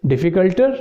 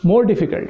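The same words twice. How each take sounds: First: Difficulterr with a rising, questioning tune; wrong form offered. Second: Slow, falling more difficult, stress on more; correct form confirmed. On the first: Teacher tests students with a wrong form, rising doubtfully. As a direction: float difficulter up as a doubtful guess. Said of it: "you're right, more difficult". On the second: Teacher confirms the right answer to students, slow and firm. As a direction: settle it firmly: more difficult. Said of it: "you're right". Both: Shown as a demonstration.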